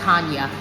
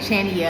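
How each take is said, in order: First: The name begins with an 'h' sound. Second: The name begins with a 'ch' sound. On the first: The speaker calls it right. "it's pronounced Hanya" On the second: The speaker calls it wrong. "I was saying Chania"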